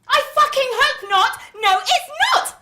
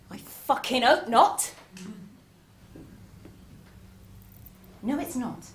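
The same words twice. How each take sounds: First: It is said at a louder volume. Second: It is said at a quieter volume.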